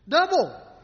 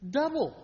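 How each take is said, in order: First: Double. repeated alone, higher and louder, with a falling end; stress on double. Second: Said in the usual way. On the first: Shown as a demonstration. Preacher echoing Double. to stress its wonder, emphatic. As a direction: punch the word Double. as a stunned echo.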